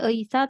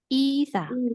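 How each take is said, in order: First: The first vowel sounds like 'ay'. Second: The first vowel sounds like 'ee'. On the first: The speaker calls it wrong. "bukan Eisa" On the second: The speaker calls it right. "tapi Isa"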